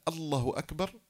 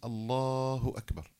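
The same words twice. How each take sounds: First: The vowel after the doubled l is short. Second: The vowel after the doubled l is lengthened. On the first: The speaker calls it wrong. "اكتفى بتشديد اللام دون مدها مدا طبيعيا فتبطل صلاته" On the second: The speaker calls it right. "مد لفظ الجلالة مدا طبيعيا"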